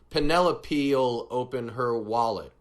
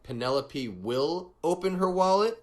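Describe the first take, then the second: First: Will is shortened and joined onto Penelope. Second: Will is said as a separate full word. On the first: This is the casual, conversational style. "we can shorten it by saying" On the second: This is the more formal, textbook style. "instead of saying something like"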